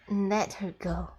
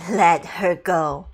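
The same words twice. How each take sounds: First: Said in the usual way. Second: Louder, slow, each word leaned on; I said let her go, slow and hard; stern repeated command. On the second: Shown as a demonstration. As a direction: repeat the order like the last warning. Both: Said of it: "I said".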